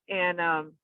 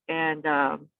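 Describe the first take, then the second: The two takes are said the same way.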